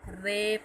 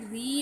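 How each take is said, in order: First: The syllable is said with an 'ay' vowel. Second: The syllable is said with an 'ee' vowel. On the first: The speaker calls it right. "बल्कि रे पढ़ें" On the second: The speaker calls it wrong. "री नहीं"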